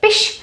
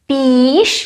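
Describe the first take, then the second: First: The vowel is kept short. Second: The vowel is held long. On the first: The speaker calls it right. "but pish. And also here it's short" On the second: The speaker calls it wrong. "it's not pish"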